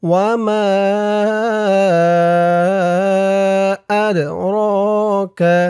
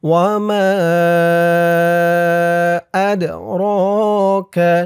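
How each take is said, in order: No difference in how they are said.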